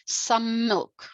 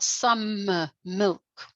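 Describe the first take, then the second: First: The m is said once, joining the words. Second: A hesitation breaks the two words apart. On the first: The speaker calls it right. "I'm going some milk, not" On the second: The speaker calls it wrong. "not some uh, milk"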